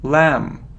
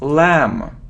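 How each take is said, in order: Both takes have the same delivery.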